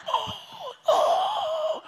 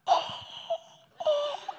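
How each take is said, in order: First: High, strained gasping "Oh, oh" in pure shock; shocked quiet yell. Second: Shocked yell. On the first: Son opening the burnt eggs, shocked yell. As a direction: gasp it out in stunned horror, pitched way up. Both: Retold or imitated. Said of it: "the most shocked, quiet yell".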